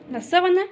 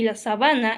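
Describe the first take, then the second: First: "sábana" stressed on its first syllable, SÁ. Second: "sabana" said as sa-BA-na, middle syllable stressed. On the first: Teacher explaining the bedsheet word, first-syllable stress on "sábana". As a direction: hit the opening SÁ of "sábana". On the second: Teacher explaining the lions' grassland word, middle-syllable stress on "sabana". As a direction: land the beat on BA in "sabana". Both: Shown as a demonstration. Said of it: "palabras iguales, pero con diferentes significados".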